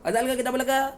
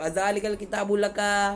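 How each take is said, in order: First: The phrase is spoken quickly, the words run together. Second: The phrase is spoken slowly, each word held apart. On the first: "ऐसे देखो वो ऐसे स्पीड में बोलते हैं" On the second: "धीरे बोलने वाले भी होते हैं"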